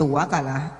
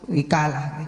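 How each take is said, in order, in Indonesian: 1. Vokal pertama adalah bunyi a. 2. Vokal pertama adalah bunyi i. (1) "menggunakan wawu yang dibaca fathah" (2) "menggunakan wawu yang dibaca kasroh"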